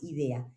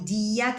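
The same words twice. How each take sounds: First: Said in the usual way. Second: "Idea" said the English way, eye-DEE-a, with a rising tune; pronunciación inglesa de "Idea"; English pronunciation. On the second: Shown as a demonstration. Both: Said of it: "la pronunciación sea diferente".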